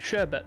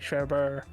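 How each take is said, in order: First: The second syllable has no R sound. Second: The second syllable has an added R sound. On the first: The speaker calls it right. "That's the proper way of saying it" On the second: The speaker calls it wrong. "because of the accents, they say sherbet"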